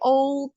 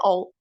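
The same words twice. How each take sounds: First: The vowel glides like a diphthong. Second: The vowel stays one steady sound. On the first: "terdengar kayak old gitu" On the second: "sebenarnya dia old"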